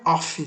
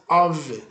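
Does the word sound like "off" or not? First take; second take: like off; not like off. First: It is said sounding like the word off. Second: It is said without sounding like off. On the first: The speaker calls it wrong. "não é off" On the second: The speaker calls it right. "que é a pronúncia of"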